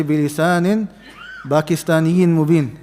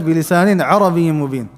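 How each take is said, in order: First: Pakistaniyin stretched slowly as a joke; teasing the wrong version; mock wrong quote. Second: Arabiyyin said firmly as clear Arabic; quoted recitation. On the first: Teacher joking about Urdu habits in recitation. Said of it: "Allah didn't say". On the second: Shown as a demonstration. Teacher quoting the verse correctly to students. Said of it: "Allah said".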